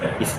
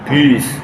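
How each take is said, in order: First: The syllable is said with a light, thin sound. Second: The syllable is said with a heavy, thick sound. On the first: The speaker calls it right. "bis bis nipis kan" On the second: The speaker calls it wrong. "jangan bis"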